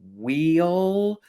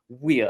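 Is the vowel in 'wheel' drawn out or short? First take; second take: drawn out; short. First: The vowel is long and drawn out. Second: The vowel is short and clipped. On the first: The speaker calls it wrong. "letting my Alabama come out there because I used to always say wheel and used to really draw that out" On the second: The speaker calls it right. "So I'm trying to"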